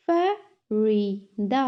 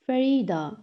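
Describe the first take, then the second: First: "Farida" slowly split as fa, ri, da; three separate beats on "Farida"; syllable by syllable. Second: Said in the usual way. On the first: Shown as a demonstration. Teacher has class repeat, "Farida" broken in three. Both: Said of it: "तीन syllables में divide".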